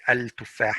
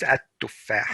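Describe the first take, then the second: First: Al-tuffah with the l sounded; al-tuffah said with a plain l; wrong al-tuffah. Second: At-tuffah with the l dropped and a doubled t; at-tuffah, l merged into the t; correct at-tuffah. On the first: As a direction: keep the l in al-tuffah as a mistake. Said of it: "it's not right to say al-tuffah". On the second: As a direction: say at-tuffah as att-tuffah. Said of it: "It's at-tuffah". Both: Shown as a demonstration.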